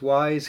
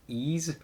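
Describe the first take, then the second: First: The word starts with a W sound, like 'wise'. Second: The word starts with a vowel, like 'ease'. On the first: The speaker calls it wrong. "I always want to pronounce this Wise because that's what it looks like" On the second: The speaker calls it right. "But it's actually pronounced Ease"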